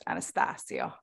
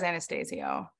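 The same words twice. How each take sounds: First: The name is said with an Italian pronunciation. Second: The name is said with an American pronunciation. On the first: This is how the family heritage would prefer it. "You would make it more Italian. That's probably the proper way to say it" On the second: This is how the name's owner says it. "he says Anastasio"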